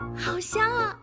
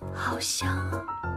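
First: It is said in a cute, playful way. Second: It is said in a sultry, seductive way. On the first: "你给我来个俏皮点的。" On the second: "性感点。"

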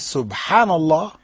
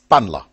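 First: The phrase is said slowly and clearly. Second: The phrase is rushed and slurred together. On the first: The words are said with their meaning in mind. The speaker calls it right. "instead of saying" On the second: The words become a meaningless sound. The speaker calls it wrong. "doing it so fast that"

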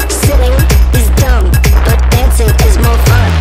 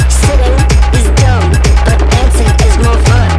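The two takes are said the same way.

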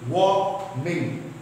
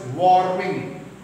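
First: The R sound is silent in the word. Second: The R sound is pronounced in the word. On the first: The speaker calls it right. "the correct pronunciation is warming. R is silent" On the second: The speaker calls it wrong. "normally people pronounce as warming"

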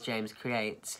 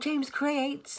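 First: The name is said in a plain, neutral voice. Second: The name is said in a mocking, taunting voice. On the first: The speaker is simply stating a channel name. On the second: Others are making fun of the speaker.

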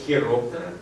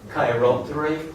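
First: The word begins with a kh sound. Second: The word begins with a k sound. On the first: "Комбінація CH вимовляється як ха" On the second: "англійці і американці вимовляють його як кей"

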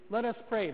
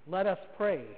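First: It runs straight on with no pause after. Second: A clear pause follows the phrase. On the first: The prayer goes on without time for personal intentions. The speaker calls it wrong. "he shouldn't say" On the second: Time is left for everyone to add their intentions. The speaker calls it right. "that it should be, let us pray. Pause"

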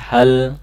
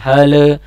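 First: The word ends cleanly on the l sound. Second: An extra vowel is added after the final l. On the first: The speaker calls it right. "tapi hal" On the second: The speaker calls it wrong. "jangan sampai ada penambahan bunyi le, bukan hale"

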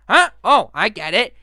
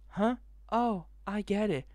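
First: It is said in a put-on Bendy voice. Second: It is said in his normal voice.

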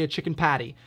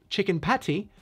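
First: The T in 'patty' is a soft, D-like tap. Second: The T in 'patty' is a crisp, fully released T. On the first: "I say a chicken patty" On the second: "I don't say chicken patty"

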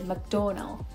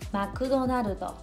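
First: The name is said with an English accent. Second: The name is said with a Japanese accent. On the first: Local listeners would not understand it. The speaker calls it wrong. "even if you say McDonald, people don't understand" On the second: Local listeners understand it. The speaker calls it right. "So different, right?"

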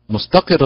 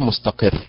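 First: The stress falls on the final syllable. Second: The stress falls on the middle syllable. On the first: The speaker calls it right. "لابد من الضغط على حركة القاف ليظهر التشديد على الراء" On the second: The speaker calls it wrong. "غير مستقر"

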